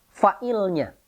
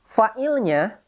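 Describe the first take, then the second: Both takes have the same delivery.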